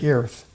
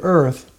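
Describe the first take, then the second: First: "earth" said as "eerth", with an ee vowel before the r; Lincoln's earth. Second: Said in the usual way. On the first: Shown as a demonstration. Showing how Lincoln said "earth" as "eerth". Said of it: "he said earth". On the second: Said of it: "instead of earth, he said earth".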